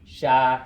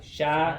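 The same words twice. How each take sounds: First: The syllable is said at a lower pitch. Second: The syllable is said at a high pitch. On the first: "without tone, that's what it sounds like" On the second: "the minute you add the B, it's very high"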